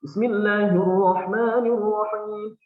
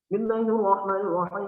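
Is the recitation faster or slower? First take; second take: slower; faster. First: It is recited at a moderately fast tempo. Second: It is recited at a very fast tempo. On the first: "bacaan yang ada temponya lebih cepat" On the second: "Contoh bacaan tadwir mungkin seperti ini. Tadwir itu temponya lebih cepat daripada hadar"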